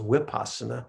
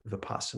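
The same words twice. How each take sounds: First: The word begins with a W sound. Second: The word begins with a V sound. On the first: "that that's just a Burmese accent. they pronounce the V's with a, a, a W" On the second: "International Standard Pali uh, pronounces it as a V"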